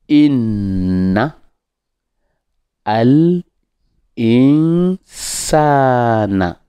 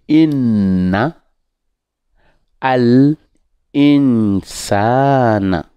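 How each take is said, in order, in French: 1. Les mots sont séparés en parties distinctes. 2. Les mots sont séparés en parties distinctes.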